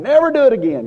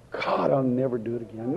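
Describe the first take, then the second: First: Much higher and louder on NEVER; fervent cry. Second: Softer, inward promise; hushed vow. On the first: Repentant sinner crying his vow to God, fervent and loud. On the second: Repentant sinner vowing to God, hushed. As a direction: murmur it like a private confession. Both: Retold or imitated.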